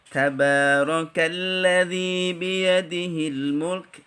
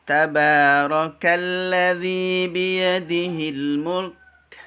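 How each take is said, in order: The two takes are said the same way.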